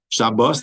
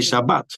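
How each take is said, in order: First: The word ends in an 's' sound. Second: The word ends in a 't' sound. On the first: "They don't say like uh, you know Shabbos" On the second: "In Sfaradim, they're both really ah. they say Shabbat"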